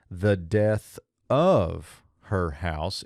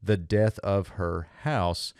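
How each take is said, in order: First: Slow, with weight on "of", "the death of her house" read as one joined phrase; conjunctive reading. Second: "the death of her house" with the stress landing on "house" and falling; slightly slow, settle the weight on "house"; construct reading. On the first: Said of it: "if we read this conjunctive accent". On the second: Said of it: "in terms of this construct accent". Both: Shown as a demonstration.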